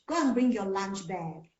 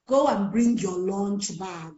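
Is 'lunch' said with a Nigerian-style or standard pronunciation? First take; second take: standard; Nigerian. First: Lunch is said with a standard English vowel. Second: Lunch is said with a Nigerian-style vowel. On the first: The speaker calls it right. "That's the correct way to say it" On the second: The speaker calls it wrong. "a typical Nigerian teacher will say"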